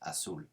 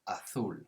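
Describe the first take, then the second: First: The z is said with an s sound. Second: The z is said with a th sound. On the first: This is how it is said in South America. "But in South America, it would be azul" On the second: This is how it is said in most of Spain. "in most of Spain, it would be pronounced azul, so with a sort of T H sound for the Z"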